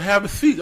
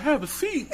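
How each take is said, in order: First: Imitated dad's order, higher and louder; mock command from a girlfriend's dad; father-in-law's order. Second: Much higher incredulous question, mock disbelief; startled echo. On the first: Dad tells nervous suitor to sit, imitated firm order. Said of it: "and he was like". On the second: Suitor questions her dad's order, high-pitched retold disbelief. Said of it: "I'm like".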